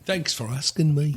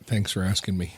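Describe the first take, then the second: First: It is said in a put-on British accent. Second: It is said in the speaker's normal accent.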